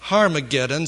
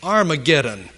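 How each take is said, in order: First: "Harmageddon" said with a clear breathy H at the start, har-ma-GED-don; the Hebrew form "Harmageddon", starting with an audible H. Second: "Armageddon" opening straight on the vowel, ar-ma-GED-don, no H; "Armageddon" as in the King James, vowel start; Armageddon without H. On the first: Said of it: "that word that I have just pronounced". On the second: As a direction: drop the H in "Armageddon", English style. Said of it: "usually will have the word". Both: Shown as a demonstration.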